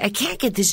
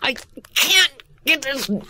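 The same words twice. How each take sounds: First: The voice is plain and flat, without effort. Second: The voice is strained, as if twisting something hard. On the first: The words are said without feeling the physical struggle. The speaker calls it wrong. "which is what a beginner would do" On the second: The physical struggle is heard in the words. The speaker calls it right. "the grimace in the face comes out of the voice"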